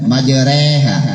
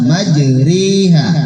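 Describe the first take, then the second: First: The vowel after r sounds like e. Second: The vowel after r sounds like i. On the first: The speaker calls it wrong. "Jangan baca e. E biasanya kan majreha" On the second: The speaker calls it right. "Tapi dibaca majriha"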